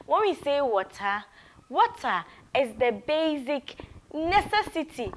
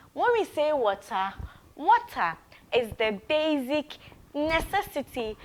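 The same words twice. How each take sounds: The two takes are said the same way.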